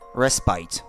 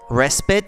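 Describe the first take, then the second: First: The word is said with a British pronunciation. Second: The word is said with an American pronunciation. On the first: "And British English, it's respite" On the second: "that's American English"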